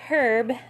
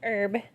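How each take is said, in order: First: It sounds like the start of Herbert. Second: It does not sound like Herbert's start. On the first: The speaker calls it wrong. "I'm not saying herb" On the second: The speaker calls it right. "I'm saying herb"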